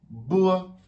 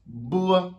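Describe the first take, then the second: First: Bois, second clear take; repeated Chinese b. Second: Bois pitched up, said as Mandarin bo; Chinese b sound. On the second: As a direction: bois with a clear Chinese b, high. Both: Shown as a demonstration. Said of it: "le B se lira".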